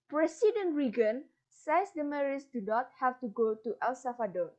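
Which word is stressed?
Reagan. The stress falls on the name Reagan.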